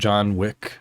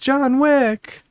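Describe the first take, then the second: First: The name is muttered quietly under the breath. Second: The name is yelled in a high girlish voice. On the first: The person is quietly recognizing the costume to themselves. "they would say it John Wick under their breath" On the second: A young child is excitedly calling out to the character. "she would yell in her girlish voice"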